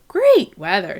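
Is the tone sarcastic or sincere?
sincere. It sounds sincere, with great pitched higher. The weather really is good. "you were being sincere ... great is higher than the rest of the sentence"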